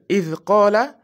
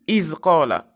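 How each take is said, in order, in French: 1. Le premier mot finit par un son th doux. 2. Le premier mot finit par un son z. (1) "au lieu de dire idh qala" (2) "tu dis iz qala"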